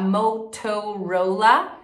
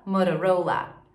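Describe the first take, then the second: First: "Motorola" as "mou-TOU-rou-la", syllable by syllable; full T in "Motorola", rising; overdone unflapped "Motorola"; hard T. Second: "Motorola" with T as tapped R; falling "mou-ra-ROU-la" for "Motorola"; American tap in "Motorola"; flapped T. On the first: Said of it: "ao invés de você falar". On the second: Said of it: "ela vira um R". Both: Shown as a demonstration.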